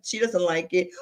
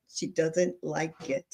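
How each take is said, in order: First: Said in the usual way. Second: Slow, soft, firm denial; slow firm retort. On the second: Retold or imitated. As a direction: spell it out slowly.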